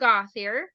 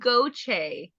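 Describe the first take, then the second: First: The surname is said the usual English way. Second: The surname is said in a Cajun French way. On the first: The speaker calls it wrong. "Completely flubbed that one" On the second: The speaker calls it right. "so it's Cajun French"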